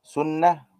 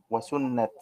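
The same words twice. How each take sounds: First: سنة stopped as "sunnah", no t; slow سنة with silent ta; pausal ha ending. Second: سنة ending on a t, "sunnat"; slow سنة with its ta pronounced; final ta sounded. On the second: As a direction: close سنة on a bare t. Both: Shown as a demonstration. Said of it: "سنة وسنة مختلفة".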